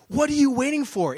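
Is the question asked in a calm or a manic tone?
manic. The question is asked in a frantic, pressing way. The asker is impatient and pushing for action. "It's like this manic expression"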